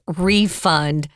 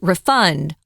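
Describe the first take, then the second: First: The stress is on the first syllable. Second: The stress is on the second syllable. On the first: The speaker calls it right. "if it's a noun, you definitely want to use refund" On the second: The speaker calls it wrong. "We don't use refund"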